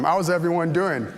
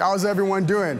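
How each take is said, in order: First: It is asked in a calm, ordinary tone. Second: It is asked loudly with high energy.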